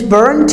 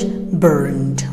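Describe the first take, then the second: First: The word ends with a T sound. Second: The word ends with a D sound. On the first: "British English" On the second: "American English"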